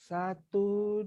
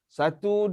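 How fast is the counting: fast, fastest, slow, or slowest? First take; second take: slowest; fast. First: The counting is very slow and drawn out. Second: The counting is moderately fast. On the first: This is the tahqiq recitation speed. "Slow kan?" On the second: This is the hadar recitation speed. "itu kelajuan hadar"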